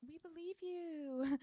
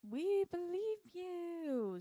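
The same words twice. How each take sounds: First: High, slow, insincere singsong; mock reassurance. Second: Very drawn-out, high singsong insincerity; exaggerated mock reassurance. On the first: Everyone answering Patricia's accusation, mock reassuring. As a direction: pretend to believe, pitched high. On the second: Everyone backing Patricia's accusation, hammed-up mock reassurance. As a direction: stretch every word high and fake.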